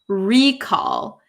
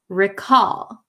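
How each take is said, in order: First: The stress is on the first syllable. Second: The stress is on the second syllable. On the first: The speaker calls it wrong. "it's not recall" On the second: The speaker calls it right. "it's recall"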